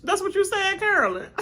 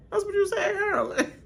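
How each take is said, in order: First: Said in the usual way. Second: Repeated through laughter, high; laughing. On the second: Retold or imitated. Host repeating the tease to Carolyn, laughing. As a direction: say it while cracking up. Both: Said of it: "See, I was like".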